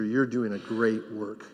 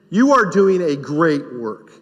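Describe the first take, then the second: First: Much softer and lower, tender; soft aside. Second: Slow, stress on "You"; emphatic affirmation. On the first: Pastor quietly affirming a teacher, soft and low. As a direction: tell the teacher gently, almost under the breath. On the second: Pastor telling teachers plainly they matter, slow and emphatic. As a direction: lean on "You" and say it firmly. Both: Real, not acted. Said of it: "repeated to teachers".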